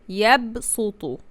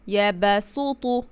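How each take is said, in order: First: The b joins the ya with no vowel. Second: An a vowel follows the b sound. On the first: The speaker calls it right. "However, it is yabsutu" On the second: The speaker calls it wrong. "pronounce it like fatha sound"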